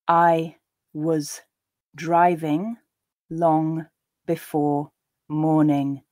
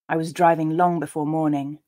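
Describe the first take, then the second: First: The sentence is read slowly and deliberately. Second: The sentence is read at a natural pace. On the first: "I'll read them slowly the first time" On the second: "a second and third time at a more natural pace"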